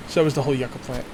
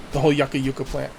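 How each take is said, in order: First: Said in the usual way. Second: Yucca as YUCK-uh, then yucca as YOO-kuh; both pronunciations. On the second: Shown as a demonstration. Player avoiding complaints, yucca said both YUCK-uh and YOO-kuh. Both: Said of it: "I'll just say both".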